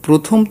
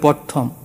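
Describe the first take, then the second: First: It begins 'pro' with an 'o' vowel. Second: It begins 'pra' with an 'a' vowel. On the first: The speaker calls it right. "অনেক অঞ্চলে প্রথম তো বলেই না" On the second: The speaker calls it wrong. "বলে প্রথম"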